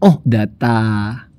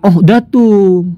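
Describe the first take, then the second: First: The word ends with an 'a' vowel. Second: The word ends with a 'u' vowel. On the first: The word is the object of the verb. The speaker calls it right. "Mesti ohdata" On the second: The word is the subject of the verb. The speaker calls it wrong. "nggak bisa dibaca ah, ah, ah ohdatu"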